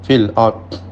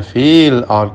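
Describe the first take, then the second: First: The vowel in fil is kept short. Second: The vowel in fil is drawn out long. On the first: The speaker calls it right. "tapi fil ard" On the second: The speaker calls it wrong. "tidak dibaca"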